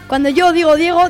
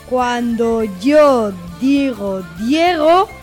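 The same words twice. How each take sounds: First: The phrase is spoken at a fast speed. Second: The phrase is spoken at a slow speed. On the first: "Y ahora vamos con la velocidad rápida" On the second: "Vamos con la velocidad lenta"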